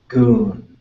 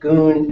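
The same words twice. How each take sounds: First: The word is said with a low tone. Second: The word is said with a high tone. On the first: It means a spring of water. "Goon is a spring of water" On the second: It means gold. "So goon is gold or the gold color"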